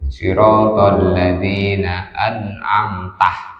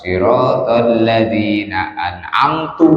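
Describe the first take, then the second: First: The last word ends with an a vowel. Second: The last word ends with a u vowel. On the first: It refers to the one being addressed. The speaker calls it right. "harusnya itu" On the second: It refers to the speaker. The speaker calls it wrong. "dengan domanya tak dibaca an'amtu"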